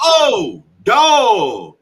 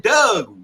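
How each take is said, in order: First: Loud, high "dog" with a long aw; "dog" drawn out as dawg, it finally clicks; retold realization. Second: "Doug" with short uh, meaning dog; imitated Baltimore pronunciation. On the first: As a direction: exclaim "dog" with an aw vowel. Retold moment of finally understanding. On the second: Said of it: "you say Doug".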